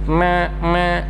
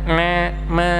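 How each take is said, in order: Both takes have the same delivery.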